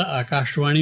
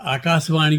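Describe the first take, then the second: First: आकाशवाणी with a clear sh, "akaash-vani"; correct sh sound. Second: आकाशवाणी said with a plain s, "akaasvani". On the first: Poet showing the radio standard, आकाशवाणी with a clear sh. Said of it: "आकाशवाणी बोलते हैं". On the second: Poet showing the interviewer what nobody says, आकाशवाणी with s instead of sh. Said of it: "कोई नहीं बोलता". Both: Shown as a demonstration.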